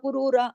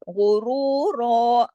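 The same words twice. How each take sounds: First: The consonants are light and loosely pronounced. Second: The consonants are heavy and full-mouthed throughout. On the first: The speaker calls it wrong. "हल्का-फुल्का, ढीला-ढाला गुरूरा उर्दू की तरह" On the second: The speaker calls it right. "इस तरीके से गुरूरा यानी ग़ैन से लेके रॉ तक सारा कुछ मोटा"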